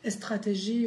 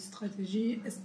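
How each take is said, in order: First: A vowel is added before the initial s. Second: The word begins directly with the s sound. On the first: This is how Persian speakers say the word. "plus avec les séquences qui commencent par le S" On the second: This is the standard French pronunciation. "au lieu de"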